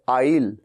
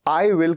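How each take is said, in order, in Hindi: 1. यह एक छोटे अक्षर में सिमट जाता है। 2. यह दो पूरे शब्दों की तरह बोला जाता है। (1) "मैं इसको कॉन्ट्रैक्ट कर देता हूं" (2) "आई विल की जगह"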